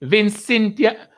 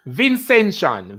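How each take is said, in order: First: "Vincentia" said slowly, ending in -tia with no n; a tentative, unsure stab at "Vincentia"; slow, hesitant try at "Vincentia"; fumbled pronunciation. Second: "Vincentian" said slowly as vin-SEN-shun; careful, slow "Vincentian" with a -shun ending; deliberate, corrected "Vincentian"; corrected pronunciation. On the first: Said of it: "That's how it's pronounced?". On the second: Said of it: "the nationality is Vincentian". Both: Real, not acted.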